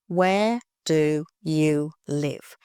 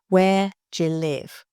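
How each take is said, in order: First: Each word is said slowly and separately. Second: 'Do you' is reduced and linked into 'je'. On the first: "Say it slowly" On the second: "it's je. You can show how sounds change and connect"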